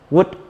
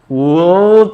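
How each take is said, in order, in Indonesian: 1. Bunyi L tidak diucapkan dalam kata tersebut. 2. Bunyi L diucapkan dalam kata tersebut. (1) "L silent, L-nya nggak dibaca" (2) "bukan would, oke, okay, ada L-nya"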